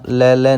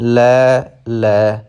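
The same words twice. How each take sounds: First: The two words are run together. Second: The two words are said separately. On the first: The speaker calls it wrong. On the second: The speaker calls it right.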